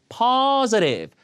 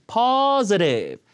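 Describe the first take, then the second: The two takes are said the same way.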